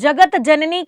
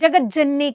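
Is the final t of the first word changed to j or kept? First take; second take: kept; changed. First: The two words are separate, ending in a t. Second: The words are joined, with the t becoming j. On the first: The speaker calls it wrong. "उसमें वो बोलती ना जगत जननी के सामने camera करो, नहीं" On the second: The speaker calls it right. "जुड़े हुए रूप में उसको बोलना चाहिए"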